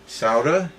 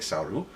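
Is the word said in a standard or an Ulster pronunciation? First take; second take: standard; Ulster. First: It is said without an Ulster pronunciation. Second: It is said with an Ulster pronunciation.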